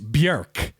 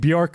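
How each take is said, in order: First: The vowel sounds like 'er'. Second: The vowel sounds like 'or'. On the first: The speaker calls it right. "It's it's not an or sound, it's an er sound" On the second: The speaker calls it wrong. "you know we're saying [name] wrong"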